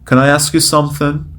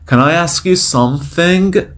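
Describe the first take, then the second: First: It is said fast with one sound dropped. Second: Every sound in the phrase is pronounced fully.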